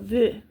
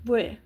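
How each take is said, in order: First: The letter is said with a V sound. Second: The letter is said with a V sound.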